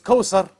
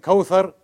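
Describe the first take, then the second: First: The middle consonant is an 's' sound. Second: The middle consonant is a 'th' sound. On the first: The speaker calls it wrong. "but then it's Kausar" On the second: The speaker calls it right. "you hear the name Kauthar"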